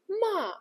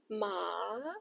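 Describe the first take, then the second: First: The pitch falls sharply downward. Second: The pitch dips low, then rises. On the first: "the fourth tone is sharp, like you are giving the command" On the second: "the third tone, it dips, then rises"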